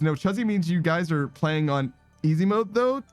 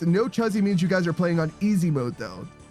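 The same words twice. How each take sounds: First: The rhythm and phrasing sound awkward and odd. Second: The rhythm and phrasing sound smooth and natural. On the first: The speaker calls it wrong. "I read it with the wrong cadence, Daddy, so it sounded weird" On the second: The speaker calls it right. "Let me read that better"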